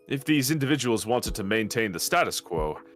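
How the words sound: The stress is on status.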